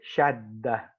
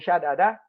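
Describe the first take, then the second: First: One long doubled d sound with no vowel. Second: Two separate d sounds with a vowel between. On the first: The speaker calls it right. "we would say shadda, and we double the del" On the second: The speaker calls it wrong. "instead of saying shadada"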